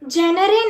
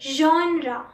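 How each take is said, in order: First: The word ends in an 'eh' sound. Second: The word ends in an 'ah' sound. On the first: The speaker calls it wrong. "जेनरे नहीं बोलते" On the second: The speaker calls it right. "ज और एंड में आ"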